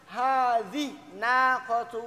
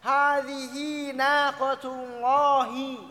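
First: The h carries no vowel at all. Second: The vowel after the h is held long. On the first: The speaker calls it wrong. "Atau disukunkan" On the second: The speaker calls it right. "Jadi dua harokat. ... Gitu kan kita bacanya"

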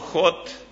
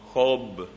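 First: The name ends without a clear b sound. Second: The name ends with a clear b sound. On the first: The speaker calls it wrong. "No Jot" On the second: The speaker calls it right. "sino Job, B final"

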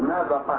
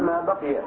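First: The last word ends in a long 'ah' sound. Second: The last word ends in an 'iya' sound. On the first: This variant is also allowed to fit the meter. "أو تفتح القاف" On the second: This is the original, unshortened form. "إلا الأصل ما بقي"

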